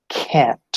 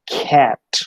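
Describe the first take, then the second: First: The first consonant has a puff of air. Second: The first consonant has a puff of air.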